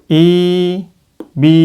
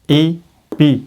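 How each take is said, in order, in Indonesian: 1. Vokalnya dibaca panjang. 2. Vokalnya pendek dan terpotong. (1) "Ini panjang" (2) "Ini pendek"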